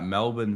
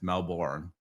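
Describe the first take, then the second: First: It is said with an Australian accent. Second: It is said with an American accent. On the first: "I'm from uh, Melbourne" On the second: "as uh, many Americans like to say, it's Melbourne"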